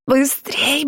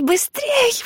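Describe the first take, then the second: First: Urgent shout. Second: Very high urgent cry; urgent shout. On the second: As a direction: yell at her to run. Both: A narrator's reading. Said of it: "вдруг закричала Фрэнсис".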